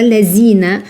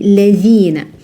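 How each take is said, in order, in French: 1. La consonne du milieu est un simple son z. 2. La consonne du milieu est un son th doux. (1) "on ne dit pas lazina" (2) "l'extrémité de la langue entre les incisives"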